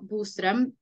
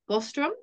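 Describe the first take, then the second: First: The name is said with a Nordic pronunciation. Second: The name is said with an English pronunciation. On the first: "That's not how we say it in English" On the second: "in English, we will say Boström"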